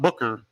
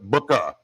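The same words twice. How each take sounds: First: The name ends in an 'er' sound. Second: The name ends in an 'ah' sound. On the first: The speaker calls it wrong. "not Booker" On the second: The speaker calls it right. "That's B U K B U K K A. I'm saying it right"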